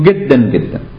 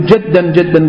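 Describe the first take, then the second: First: The word begins with a hard g sound. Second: The word begins with a j sound. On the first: "مصری ها جیم رو گاف تلفظ میکنن" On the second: "مصری ها جیم رو گاف تلفظ میکنن"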